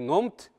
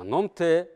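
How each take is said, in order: First: The word ends on a consonant sound. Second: The word ends on a vowel sound. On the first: The speaker calls it wrong. "Не номт" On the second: The speaker calls it right. "а номте"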